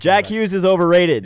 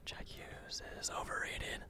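First: It is said louder, with more force. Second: It is said at a normal speaking volume.

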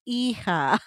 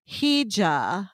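First: The word is said with Spanish-like sounds. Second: The word is said with English-like sounds. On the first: The speaker calls it right. "That's hija" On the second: The speaker calls it wrong. "She wasn't even saying it right"

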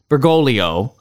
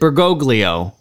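First: The second g sound is silent. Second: The second g sound is pronounced. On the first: The speaker calls it right. "In Italian, that second G would be silent, so it is Bergoglio" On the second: The speaker calls it wrong. "Father Altman pronounces it Bergoglio"

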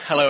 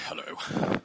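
First: It is said in his normal voice. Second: It is said in a put-on deep voice.

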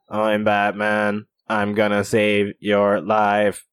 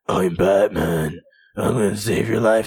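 First: The voice is flat and mechanical like a machine. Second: The voice is hoarse and raspy like a smoker. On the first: He lost his voice and uses a machine. "he has like a robot voice" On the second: Smoking has damaged his voice. "Now he sounds like a heavy smoker"

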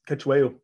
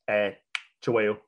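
First: The name is said with an anglicized pronunciation. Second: The name is said with a Zulu pronunciation.

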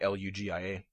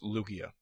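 First: The G is pronounced soft, like a J. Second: The G is pronounced hard, like in go. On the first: The speaker calls it wrong. "Some people go ahead and make it a soft G" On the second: The speaker calls it right. "So it's Lugia"

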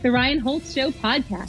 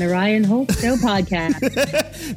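First: It is said in the speaker's ordinary voice. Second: It is said in a put-on radio announcer voice. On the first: The speaker calls it right. "You can just have mine" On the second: The speaker calls it wrong. "You want the radio announcer voice?"

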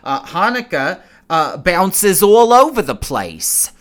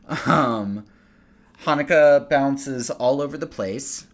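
First: It is said in a New Jersey Jewish accent. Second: It is said in the speaker's ordinary accent.

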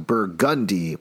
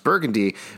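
First: The stress is on the second syllable, gun. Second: The stress is on the first syllable.

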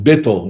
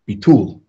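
First: Ashkenazic style, stress on the first syllable. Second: Sephardic style, stress on the last syllable.

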